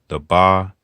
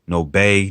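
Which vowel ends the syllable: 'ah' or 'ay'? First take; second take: ah; ay. First: The syllable ends in an 'ah' vowel. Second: The syllable ends in an 'ay' vowel. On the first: The speaker calls it right. "You gonna only make ah the ah sounds" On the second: The speaker calls it wrong. "It ain't none of that"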